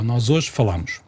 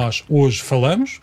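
First: "falamos" with a wide open á, like falámos. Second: "falamos" with a closed, muffled first-syllable a, like fâlamos, said slowly. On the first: Host contrasting it with the past tense for his co-host, open a. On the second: Host demonstrating the southern present tense to his co-host, slow closed a. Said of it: "entre dizer". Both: Shown as a demonstration.

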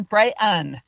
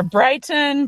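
First: "Brighton" with a glottal stop for T; glottalized T. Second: "Brighton" with a released T; full T. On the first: Joking over the ski resort's name, "Brighton" with dropped T. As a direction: say "Brighton" as Bry-catch-un. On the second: Joking over the ski resort's name, "Brighton" with sounded T. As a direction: pronounce the T in "Brighton": Brigh-ton. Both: Shown as a demonstration. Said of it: "It's either Brighton".

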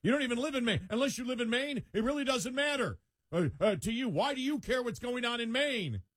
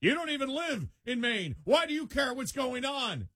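First: High whiny pundit voice; high nagging mockery; mocking quote. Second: High mocking whine of a national pundit; high scornful pundit mimicry; mocking quote. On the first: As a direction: mimic the pundit high and scornful. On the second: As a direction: sneer it in a high put-on voice. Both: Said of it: "somebody national saying".

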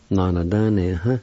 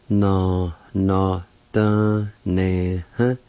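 First: Said in the usual way. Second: "Na, na, da, ne, huh?" in separate drawn-out syllables. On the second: Shown as a demonstration. Teacher pronouncing the word performance, "Na, na, da, ne, huh?" syllable by syllable. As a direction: break "Na, na, da, ne, huh?" apart for learners. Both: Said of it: "is pronounced like this".

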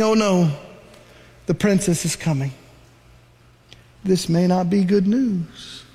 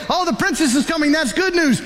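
First: Worried. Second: Cheerful. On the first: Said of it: "Miriam is saying". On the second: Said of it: "Some of you say". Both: Retold or imitated.

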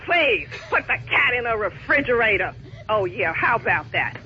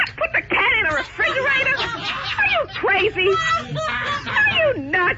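First: Low, dry sarcasm, the pitch dropped right down; mock the idea with low, contempt-filled repetition; sarcastic scorn. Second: High, incredulous and angry, rising to a shout; outraged disbelief. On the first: Pet owner scornfully repeating the airline rep's idea, low and sarcastic. Customer mocks the rep's suggestion. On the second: Outraged pet owner yelling at the airline rep, high and incredulous. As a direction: she can't believe what she just heard. Customer told to fridge her cat. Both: Real, not acted.

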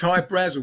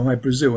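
First: Hy Brasil with first syllable stressed, BRAZ-ul; Irish pronunciation. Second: Hy Brasil with second syllable stressed, bra-ZIL; common pronunciation. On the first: Guest corrects to the Irish way, Hy Brasil as BRAZ-ul. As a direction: say Hy Brasil to rhyme with dazzle. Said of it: "how the Irish would pronounce it". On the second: Guest gives listener the popular version, Hy Brasil as bra-ZIL. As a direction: say Hy Brasil like the country Brazil. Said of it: "people pronounce it Hy Brasil". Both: Shown as a demonstration.

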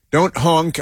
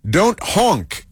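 First: Said in the usual way. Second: "Don't" jumped up high on an exclamation; exclamatory reading. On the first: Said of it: "is what it says". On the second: Retold or imitated. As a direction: read the sticker aloud like an exclamation. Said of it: "exclamation mark".

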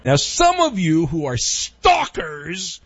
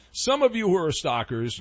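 First: Slow, drawn-out shout on STALKERS; big, stretched-out theatrical address; mock dramatic callout. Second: Said in the usual way. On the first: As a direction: call them out like a hammy announcer.

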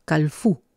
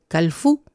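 First: Calfú with the final fú stressed and rising; stress on the end. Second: Calfú slowed, weight on the final fú; stress on the end. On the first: Teacher repeating a colour word, calfú stressed at the end. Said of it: "al final de la palabra". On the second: Teacher modelling a colour word, calfú stressed at the end. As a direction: lean on the last syllable of calfú. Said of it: "pone el acentito al final". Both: Shown as a demonstration.

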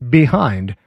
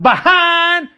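First: Said in the usual way. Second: "behind" high, drawn out as "buh-hahn"; mock twanged "behind". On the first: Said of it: "the word is behind". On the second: Shown as a demonstration. Host shows the wrong word, "behind" as twangy "buh-hahn". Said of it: "Not behind".

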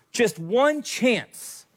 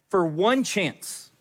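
First: "one" pitched higher, very slow and falling; climbing, slower repeat stressing "one"; building rousing emphasis. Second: "one" stressed and drawn out slowly, falling; slowed "for one chance" with weight on "one"; slow rousing emphasis. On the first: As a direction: lift "one" higher and stretch it out. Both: Retold or imitated. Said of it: "a good pre-battle speech".

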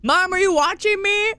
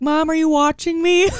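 First: Put-on much higher little boy plea; eager kid voice. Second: Put-on higher, excited little boy asking mom to watch; child calling out to mom from the field; eager kid voice. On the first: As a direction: repeat the kid's question, higher and pleading. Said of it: "Legit, legit". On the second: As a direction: play the proud kid checking mom is looking. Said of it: "he would look at me and be like".

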